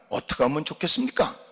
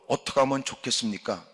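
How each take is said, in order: First: The question sounds resentful and uncomfortable. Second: The question sounds humiliated and defeated. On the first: The asker blames God for the trouble. "불편한 마음으로" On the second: The asker has given up after failing. "굴욕적으로"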